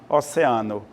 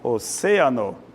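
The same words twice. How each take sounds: First: The stress falls on the syllable 'a'. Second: The stress falls on the syllable 'ce'. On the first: This is the Portuguese pronunciation. "no português... Simplesmente a sílaba A" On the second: This is the Spanish pronunciation. "no espanhol... a tônica é C"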